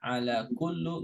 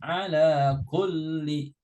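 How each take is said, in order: First: The last word ends with a u vowel. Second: The last word ends with an i vowel. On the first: The speaker calls it wrong. "nggak boleh" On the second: The speaker calls it right. "Harus ala kulli"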